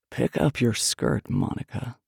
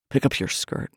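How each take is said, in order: First: Slow, low and deliberate male order; slow command. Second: Quiet low order from a man; commanding man. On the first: Man repeats his order to Monica, slow command. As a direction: draw the order out, dropping low. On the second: Man orders his lover mid-quarrel, commanding. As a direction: give a low, controlled command. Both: A narrator's reading.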